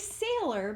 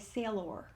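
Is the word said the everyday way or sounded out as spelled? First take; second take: everyday; sounded out. First: It is said the ordinary everyday way. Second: It is sounded out the way it is spelled. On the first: This is how the word is normally spoken. "We say sailor" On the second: This helps the speller remember the letters. "when we think to spell... they should say sailor"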